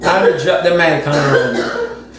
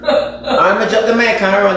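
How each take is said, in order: First: "I'ma drop the mic on road" said slowly and firmly, no laugh; slow, deliberate. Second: Laughing. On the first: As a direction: lay it down slow and final. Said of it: "repeated slowly after the laugh". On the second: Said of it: "laughs while saying it". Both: Real, not acted.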